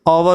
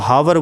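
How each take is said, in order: First: The word starts directly with a vowel sound. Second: The word starts with an audible h sound. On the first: The speaker calls it right. "ये आवर होता है। यहाँ पर एच silent रहता है" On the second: The speaker calls it wrong. "बहुत से लोग गलत प्रोनाउंसिएट करते हैं, इसको हावर बोलते हैं"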